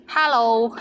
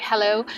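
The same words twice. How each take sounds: First: Hello in a Cantonese accent; Cantonese-accented hello, held longer. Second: Said in the usual way. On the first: Shown as a demonstration. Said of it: "or with the Cantonese accent". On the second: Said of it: "you can say in English".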